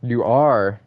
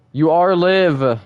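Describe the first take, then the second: First: Said in the usual way. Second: "You are live" slow, loud and high, every word hit; emphatic insistence. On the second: Real, not acted. Streamer insists to chat they're live, slow and loud. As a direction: drag out "live" with force.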